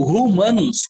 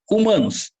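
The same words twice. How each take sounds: First: Humanos said as rumanos, with an aspirated H; H sounded. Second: Humanos starting straight on the U vowel; silent H. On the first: Teacher testing the letter H, humanos with H sounded. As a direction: put a breathy R sound on the H of humanos. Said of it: "A letra H, ela é". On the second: Teacher giving the right option, humanos with silent H. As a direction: leave the H of humanos silent, u-manos. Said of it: "Eu falo humanos". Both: Shown as a demonstration.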